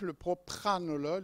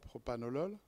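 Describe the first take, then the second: First: An r sound follows the second p. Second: No r sound follows the second p. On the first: The speaker calls it right. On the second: The speaker calls it wrong. "et non pas propanolol"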